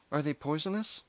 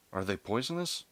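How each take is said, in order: First: Much higher voice for the mother's question; voiced worried mother. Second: Said in the usual way. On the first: A narrator's reading. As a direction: ask it high, as an anxious mother.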